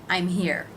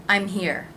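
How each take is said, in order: No difference in how they are said.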